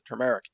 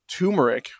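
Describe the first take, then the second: First: The first syllable is said with an r sound. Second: The first syllable is said without an r sound. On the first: The speaker calls it right. "that's the way I like to pronounce it" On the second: The speaker calls it wrong. "Some people still pronounce it turmeric, which is wrong. There's an extra R in there"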